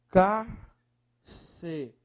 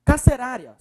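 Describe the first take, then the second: First: "Carcerária" in very slow, separated syllables. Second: Said in the usual way. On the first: Shown as a demonstration. Teacher separating the word on request, syllable by syllable. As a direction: break "Carcerária" apart, pausing after every syllable. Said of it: "Separe, por favor".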